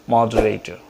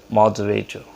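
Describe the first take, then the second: The two takes are said the same way.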